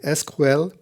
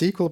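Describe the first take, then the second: First: It is said with German letter names. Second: It is said with English pronunciation. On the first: "In German, I would say S Q L" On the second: "I usually use S Q L"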